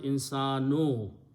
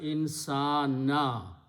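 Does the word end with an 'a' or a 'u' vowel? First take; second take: u; a. First: The word ends with a short 'u' vowel. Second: The word ends with a short 'a' vowel. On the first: The word is the one doing the action. The speaker calls it wrong. "Originally the word was insanu" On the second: The word is the object that was acted upon. The speaker calls it right. "we change this dhamma to a fatah"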